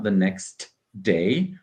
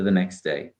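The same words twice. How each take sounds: First: The T at the end of next is pronounced. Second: The T at the end of next is dropped. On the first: The speaker calls it wrong. "It's not the next day" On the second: The speaker calls it right. "but rather the next day. ... I'm not saying that T at all"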